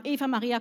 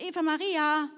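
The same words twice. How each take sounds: First: Calls the name across the schoolyard, a bit louder; first call to pick her for the team. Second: Second call, higher and louder to get her attention; calling again, higher. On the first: Schoolgirl calls a classmate into her team, calling out. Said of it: "Und ich habe dann gerufen". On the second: Schoolgirl calls the unresponsive classmate again, higher and louder. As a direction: call her again when she didn't react. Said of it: "Die hat gar nicht reagiert". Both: Retold or imitated.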